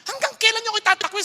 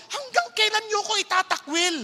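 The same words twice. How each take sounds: First: Higher and faster, pushing harder; heated divine rebuke; angrier God. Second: Higher, aggrieved question; a hurt, fed-up God asking; mild exasperated divine voice. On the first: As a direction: repeat the question with rising anger. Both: Retold or imitated. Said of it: "sabi ng Lord".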